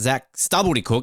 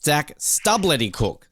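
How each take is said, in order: First: The L in the surname is said loosely. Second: The L in the surname is said carefully. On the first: The speaker calls it wrong. "we've all been saying your name wrong. It's not" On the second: The speaker calls it right. "it's ... pronounce the L right"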